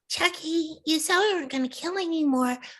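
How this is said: The voice is cute, doll-like and mischievous. It is the doll character speaking. "Tiffany the doll talks like this"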